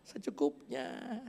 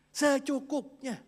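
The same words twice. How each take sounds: First: "secukupnya" said slowly, softening at the end. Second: "secukupnya" drawn out slowly and higher; stress on secukupnya. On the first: Reading the Lord's prayer line, slow fading word. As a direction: let "secukupnya" fade out slowly. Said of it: "Berilah kami pada hari ini". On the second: Preacher stresses daily bread to congregation, slowly drawn out. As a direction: stretch out "secukupnya" high and slow. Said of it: "Hari ini". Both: Shown as a demonstration.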